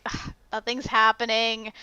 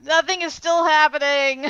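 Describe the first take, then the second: First: Mildly bored grumble on first viewing; understated, resigned sigh of boredom; weary complaint. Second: Higher-pitched exasperated whine; exasperated complaint. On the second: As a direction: wail that the boredom goes on. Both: Retold or imitated. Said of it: "just 'cause I'm like".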